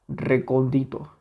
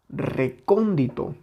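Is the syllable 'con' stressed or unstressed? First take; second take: unstressed; stressed. First: The syllable 'con' carries no stress. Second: The syllable 'con' is clearly stressed. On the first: "Si nosotros le quitamos esa intensidad, tendríamos recondito" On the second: "Si le añadimos esa intensidad, suena a la palabra recóndito"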